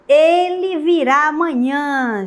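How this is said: It is said as an emotional exclamation. The speaker shows happy feelings about it. "A exclamativa, né, o estado emotivo"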